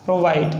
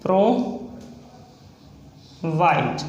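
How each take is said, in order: First: Said in the usual way. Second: Drawn out slowly. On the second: Shown as a demonstration. Shorthand teacher writing provide for students, said very slowly. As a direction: stretch provide out very slowly, syllable by syllable. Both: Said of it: "next है provide".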